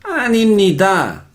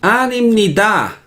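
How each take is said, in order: The two takes are said the same way.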